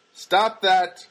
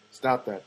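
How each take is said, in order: First: Loud, sharp reprimand; self-scolding. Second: Said in the usual way. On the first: Pretend. Telling himself to forget the girl, loud scolding. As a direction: order yourself firmly to quit it.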